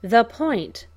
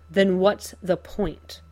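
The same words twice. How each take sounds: First: "The point" punched louder, falling; stressed echo. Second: Slow, sullen retort. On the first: Joker echoing Bruce's words, stressed "The point". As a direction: hit "point" hard, throwing it back. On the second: Cuffed Bruce answering Joker, sullen retort. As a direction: shoot it back sullenly. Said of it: "Bruce shoots back sullenly". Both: A narrator's reading.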